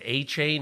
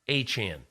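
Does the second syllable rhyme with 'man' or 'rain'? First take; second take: rain; man. First: The second syllable rhymes with 'rain'. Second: The second syllable rhymes with 'man'. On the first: The speaker calls it wrong. "I said A-Chain. He goes, no" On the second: The speaker calls it right. "no, A-Chan"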